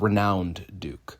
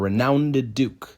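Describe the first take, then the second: First: Renowned is said with two syllables. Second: Renowned is said with three syllables, ending -ed. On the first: "instead of" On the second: "they're adding an extra syllable"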